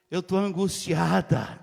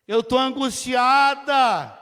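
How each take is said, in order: First: Said in the usual way. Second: Louder and slow, pleading in anguish; anguished plea. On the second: Acted. Hannah insisting to the priest Eli, anguished and slow. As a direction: let the word angustiada ache, drawn out.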